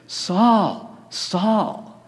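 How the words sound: The voice sounds plaintive and pleading. The speaker is hurt and vulnerable. The speaker calls it right. "the repetition certainly leads us to like a plaintive"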